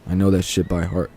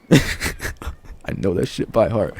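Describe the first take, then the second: First: Said in the usual way. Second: Slow, laughing, drawn-out and softer; funny way of saying it. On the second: Shown as a demonstration. Vlogger repeating his own line to camera, slow laughing drawl. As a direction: stretch it out through a laugh, half amused. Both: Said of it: "Just the way I said that".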